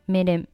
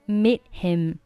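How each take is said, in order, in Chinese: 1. h 不发音，'meet' 连到 'him' 上。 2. 'meet' 的 t 不发音，'him' 单独说。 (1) "meet 和him 其实一样的也是击穿" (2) "如果你不想连，你可以选择meet 末尾不发音"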